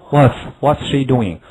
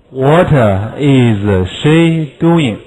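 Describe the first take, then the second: First: Said in the usual way. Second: Very slow uncontracted what is; every word separate, what is unreduced; slow full form. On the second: Shown as a demonstration. Teacher shows the full form before the contraction. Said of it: "What is可以缩写".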